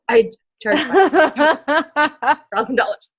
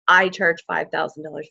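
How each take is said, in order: First: It is said in a nervous, shaky voice. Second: It is said in a steady, confident voice. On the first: The speaker is stating this fee for the first time. "it's probably going to be really shaky" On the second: The speaker is used to stating this fee. "I can say it with confidence"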